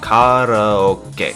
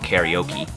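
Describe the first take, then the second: First: The word is given its technical, original pronunciation. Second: The word is given its common American pronunciation. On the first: "I know that's the technical pronunciation" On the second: "a lot of people in America call it karaoke"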